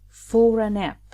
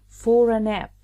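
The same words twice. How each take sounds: Both takes have the same delivery.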